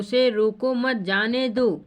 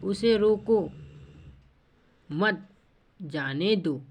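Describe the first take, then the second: First: The pause comes right after 'mat'. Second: The pause comes right after 'roko'. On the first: The person should be allowed to go. "जाने दो मतलब उसे आज्ञा दे रहा है" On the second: The person should be stopped. "रोकने की बात है"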